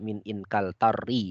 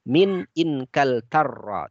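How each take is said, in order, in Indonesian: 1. Kata itu berakhir dengan vokal 'i'. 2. Kata itu berakhir dengan vokal 'a'. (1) "tidak min Inkaltarri" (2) "kita membacanya min Inkaltarra"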